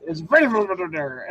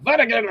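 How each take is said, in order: First: Vanagander said as written, no extra R; correct Vanagander. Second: Vanagander with a mock extra R sound; high mock Vanagander; narrator's Vanagander. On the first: Retold or imitated. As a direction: give Vanagander its proper spelling sound. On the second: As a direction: mimic the narrator saying Vanagander. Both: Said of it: "every time he says Vanagander".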